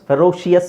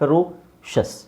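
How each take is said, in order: First: The ending is two syllables, like shee-us. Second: The ending is one syllable, like shus. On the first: The speaker calls it wrong. "ಫೆರೋಷಿಯಸ್ ಅಲ್ಲ" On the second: The speaker calls it right.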